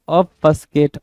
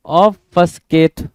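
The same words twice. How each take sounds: First: Said in the usual way. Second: Obfuscate stretched out very slowly and a bit louder, every syllable drawn long; slow model word. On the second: Shown as a demonstration. Teacher to exam students, modelling the new word very slowly. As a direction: spell out obfuscate slowly and clearly for the class. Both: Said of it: "seventeen".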